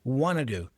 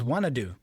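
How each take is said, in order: First: 'Want to' is reduced to 'wanna'. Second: The same.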